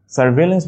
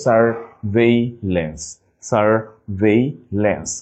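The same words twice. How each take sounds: First: Said in the usual way. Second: Slow "surveillance" as sur, vei, lance; syllable by syllable. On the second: Shown as a demonstration. Teacher showing spelling, "surveillance" slowly split. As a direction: pause between syllables of "surveillance". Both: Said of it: "just একটু ভেঙে নিব".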